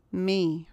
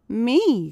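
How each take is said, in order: First: Subdued, bitter repetition. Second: Higher, louder startled cry. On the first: Annie repeating it after being chosen, bitter. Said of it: "with a terrible, bitter accent". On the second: Annie hearing that she is chosen, crying out. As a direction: exclaim it sharply in disbelief. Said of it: "cried Annie". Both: A narrator's reading.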